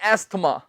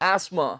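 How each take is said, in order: First: The th sound is pronounced in the middle. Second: The th sound is left out. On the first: The speaker calls it wrong. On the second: The speaker calls it right.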